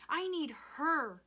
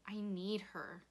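First: High, loud, drawn-out cry; anguished scream. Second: Hushed, breathy plea; grieving. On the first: Rob needing his dead mother, screaming. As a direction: wail each word at full voice. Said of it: "he screamed". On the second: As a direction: say it small into his shirt. Rob grieving in father's shirt. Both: A narrator's reading.

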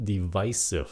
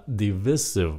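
First: DIVISIVE with a long i, "di-VICE-iv"; recent pronunciation. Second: DIVISIVE with a short i, "di-VISS-iv"; first pronunciation. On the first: Teacher shows what many say lately, DIVISIVE as "di-VICE-iv". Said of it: "gần đây nhiều người phát âm là". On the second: Teacher shows the first reading, DIVISIVE as "di-VISS-iv". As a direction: say DIVISIVE to rhyme with missive. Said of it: "Chữ này phát âm là". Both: Shown as a demonstration.

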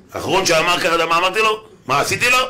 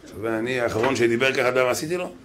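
First: Louder, higher, rising indignant questions; mock-menacing tirade, pitched up and loud; escalated threatening boast. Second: Said in the usual way. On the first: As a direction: hurl the questions out as a raised-voice threat. Same boast repeated, escalated.

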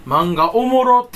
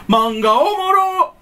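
First: Slow, loud fake Kansai "おもろ"; fake Kansai dialect. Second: Much higher, very slow, loud "おもろ"; exaggerated fake Kansai. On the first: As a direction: drag out "おもろ" in mock Kansai. (ゆっくり大声のエセ関西弁) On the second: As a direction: stretch "おもろ" way up like a parody. (高くゆっくり誇張したエセ関西弁) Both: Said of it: "エセ関西弁".

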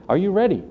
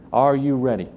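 First: First take pitched high and pressing; emphatic call. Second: Said in the usual way. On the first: Acted. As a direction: ask it as a rousing challenge. Preacher repeats question to congregation.

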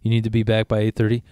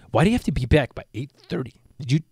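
First: Said in the usual way. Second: Mock a bratty kid questioning the rule; swooping, incredulous kid impression; put-on voice of a spoiled kid challenging a parent. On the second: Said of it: "that's how he talks all the time".

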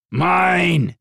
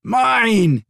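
First: Higher, louder stubborn claim; a beast staking its claim; stubborn dragon claiming its prey; insistent dragon. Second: Much higher, louder gleeful cry; a beast thrilled with its catch; joyful dragon crowing over its prize; delighted dragon. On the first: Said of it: "his dragon insisted". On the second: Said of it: "his dragon replied with delight". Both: A narrator's reading.

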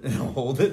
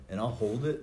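First: Said through a laugh, louder; amused repeat, louder. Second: Said in the usual way. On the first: Retold or imitated.

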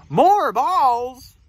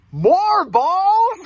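First: Louder, raised questioning piggy; lightly voiced piggy, query pitched up; piggy character. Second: High, loud incredulous question; snake character. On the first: Piggy answers elephant's suggestion, lightly voiced louder question. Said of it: "And the piggy says". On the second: Acted. Snake hears of more balls, high loud alarmed voice. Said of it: "And the snake says".

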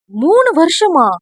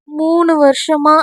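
First: Indignant surprise. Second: Shy slow admission. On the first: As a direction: throw the words back at him, hurt. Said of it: "என்று கோபமாக கூறவும்". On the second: Veeri shyly confessing three years of love, slow and bashful. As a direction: admit it slowly, a little embarrassed. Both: Acted.

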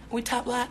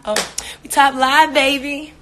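First: Said in the usual way. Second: Louder, higher hype; excited. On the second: Real, not acted. Bragging to viewers about the top live, excited and louder. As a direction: celebrate it loudly to the chat.

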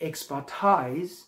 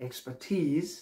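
First: Expertise drawn out slowly, ending "tize"; wrong pronunciation. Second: Expertise ending in a long "teez"; right pronunciation. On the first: Teacher marking the common mistake, slow "-tize" ending. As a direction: say Expertise to rhyme with "ties". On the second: Teacher giving the correct word, "-teez" ending. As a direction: say Expertise to rhyme with "tease". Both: Shown as a demonstration.

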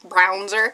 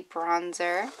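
First: "Brownzer" with the vowel of "brown"; mispronounced bronzer. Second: "bronzer" with a short o, as in "bronze"; standard pronunciation. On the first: Vlogger misreading a makeup label, "Brownzer" said with a "brown" vowel. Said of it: "I almost just said Brownzer". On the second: Vlogger naming the makeup correctly, "bronzer" with the vowel of "bronze". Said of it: "I kinda did say bronzer". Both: Real, not acted.

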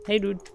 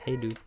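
First: High, loud call of hey dude; yelled greeting. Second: Said in the usual way. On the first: Real, not acted. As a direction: shout Hey, dude up high to get its attention.

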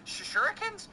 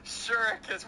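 First: "shurikens" asked with high rising doubt; questioning pronunciation. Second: "Shurikens" said firmly with a falling end; settled pronunciation. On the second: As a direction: state "Shurikens" with confidence. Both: Real, not acted. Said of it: "I don't know how to pronounce".

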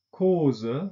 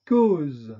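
First: 'Cause' said the German way, with a final schwa, kozə; German 'Cause' with a trailing schwa; German-style. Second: 'cause.' said the French way, with a released voiced z; French 'cause.' with no schwa. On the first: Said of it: "deutsche Aussprache ... Schwarlaut". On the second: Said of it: "französischen Aussprache mit Detente". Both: Shown as a demonstration.

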